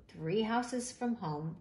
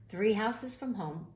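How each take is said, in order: Both takes have the same delivery.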